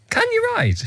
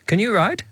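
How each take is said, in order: First: It is asked in a challenging, upsetting tone. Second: It is asked in a normal, gentle tone.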